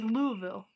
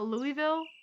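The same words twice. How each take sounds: First: The name is swallowed into a mumbled, gulping sound. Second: The name is said clearly, syllable by syllable. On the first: The speaker calls it right. "sounds like you threw up in your mouth a little bit" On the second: The speaker calls it wrong. "not Louisville"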